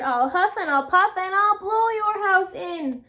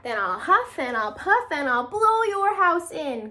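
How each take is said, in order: First: High, loud wolf roar; big bad wolf roaring. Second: Threatening, loud wolf cry; angry wolf. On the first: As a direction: bellow the threat at the pigs. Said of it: "he roared". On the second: Acted. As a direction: growl the threat at the pigs. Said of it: "cried the angry old wolf".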